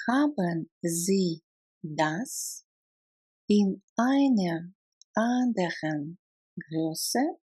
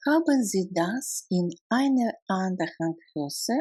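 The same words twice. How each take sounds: First: Word by word. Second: Said in the usual way. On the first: Shown as a demonstration. Teacher breaks down a German question for learners, word by word. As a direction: break the question into small, careful pieces. Language drill, broken into words.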